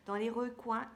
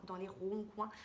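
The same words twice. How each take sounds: First: Recoins said properly as "re-coin", louder; self-correction. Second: Says ronds-coins as "ron-coin", a garbled recoins; slip of the tongue. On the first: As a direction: fix it firmly: recoins with a clear re. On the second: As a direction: stumble on ronds-coins with a nasal ron instead of re. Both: Real, not acted.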